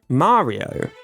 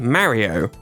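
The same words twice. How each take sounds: First: It is said with an American vowel. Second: It is said with a British vowel.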